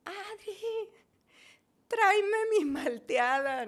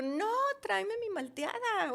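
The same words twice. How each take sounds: First: Calling down from upstairs, drawn out; retold shout. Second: High, insistent desperate demand. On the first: Patient calls to sister from balcony, retold shout. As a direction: call out slowly, high name then louder order. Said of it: "me asomo y le grito". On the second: Retold or imitated. Patient refuses to wait for sister, acted desperate demand. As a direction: insist in a high, pleading retold cry. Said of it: "estaba yo desesperada".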